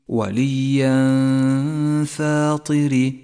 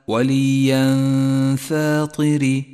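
Both takes have the same delivery.

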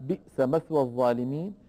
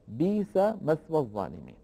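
First: The first word has a glottal stop after its vowel. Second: The first word has a long i vowel, no glottal stop. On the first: This is not the reading of Warsh. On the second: This is the reading of Warsh.

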